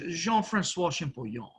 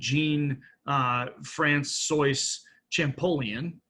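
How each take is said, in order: First: It is said with a French accent. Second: It is said with an English accent.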